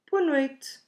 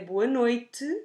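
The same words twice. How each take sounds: First: The final vowel of noite is dropped completely. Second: The final vowel of noite is said very softly. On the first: "we completely drop it" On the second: "pronounce it in a very soft way"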